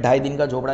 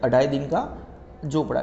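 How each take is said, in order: First: "ढाई" starting straight on dh; Gujarati-book form. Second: "अढ़ाई" opening on a short a; form with initial a. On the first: Teacher quoting the Gujarati book, "ढाई" without initial a. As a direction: say "ढाई दिन का झोपड़ा" with no opening vowel. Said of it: "वैसे गुजराती में ढाई दिन का झोपड़ा लिखा है". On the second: Teacher reading this book's form, "अढ़ाई" with initial a. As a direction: say "अढ़ाई दिन का झोपड़ा" with a vowel before dh. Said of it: "यहाँ पे कैसा है". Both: Shown as a demonstration.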